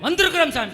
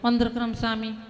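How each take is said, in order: First: The phrase is said in a loud, full voice. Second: The phrase is said in a soft, quiet voice. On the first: The groom answers the priest boldly. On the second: The bride answers the priest shyly.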